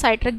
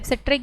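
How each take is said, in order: First: The first vowel is a glide, like in site. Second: The first vowel is short, like in sit. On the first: "सिट्रिक या साइट्रिक भी बोल सकते हो आप" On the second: "सिट्रिक या साइट्रिक भी बोल सकते हो आप"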